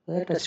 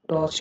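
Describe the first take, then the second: First: The vowel is a short 'uh' sound. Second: The vowel is an open 'aw' sound. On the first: The speaker calls it right. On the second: The speaker calls it wrong.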